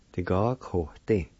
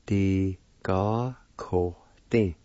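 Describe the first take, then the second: First: Said in the usual way. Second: "Di ga ko tin" slowly, each syllable drawn out. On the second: Shown as a demonstration. Teacher pronouncing the word plant, "Di ga ko tin" slowly in syllables. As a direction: say "Di ga ko tin" slowly with small gaps. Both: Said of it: "is pronounced like this".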